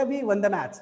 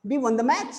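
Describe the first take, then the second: First: Said in the usual way. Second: MATCH rising at the end; a checking question that climbs on MATCH; question from a newcomer. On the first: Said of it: "वो तो information दे रहा है". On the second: Shown as a demonstration. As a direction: ask it, lifting on MATCH. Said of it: "अगर मैं पहुंचूंगा तो क्या बोलेगा".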